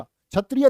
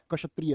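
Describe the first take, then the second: First: क्षत्रिय said as the common wrong form. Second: कक्षत्रिय with a doubled क before the श sound; right way. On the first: Teacher mocks the common mistake, loud. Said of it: "नहीं होता". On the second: Teacher quietly gives the correct form to students. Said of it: "क्षत्रिय नहीं होता". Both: Shown as a demonstration.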